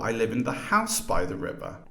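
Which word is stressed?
house. The main stress is on house.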